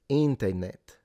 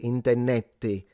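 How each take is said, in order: First: The word ends on the final t sound. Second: The word ends with an added vowel sound. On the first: This is how the current generation says it. "But like I would say" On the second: This is how older people say it. "adding the e at the end is something that like older people did"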